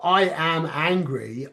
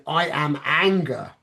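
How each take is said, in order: First: "I am angry" slow, rising on "I"; "I am angry" as the rejected choice; wrong option. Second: "I am anger" slow, falling on "anger"; "I am anger" as the approved choice; right option. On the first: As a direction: slowly lift "I" in "I am angry". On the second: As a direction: slowly settle down on "anger". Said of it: "Yes, perfect". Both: Shown as a demonstration.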